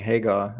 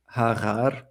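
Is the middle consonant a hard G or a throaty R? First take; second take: hard G; throaty R. First: The middle consonant is a plain hard g. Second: The middle consonant is a throaty r-like sound. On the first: "instead of saying" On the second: "pronounce it like a, a r"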